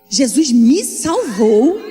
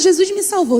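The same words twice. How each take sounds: First: It is said in an emphatic, weighty tone. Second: It is said in a casual, offhand tone. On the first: Being saved is treated as something tremendous. The speaker calls it right. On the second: Being saved is treated as an ordinary thing. The speaker calls it wrong.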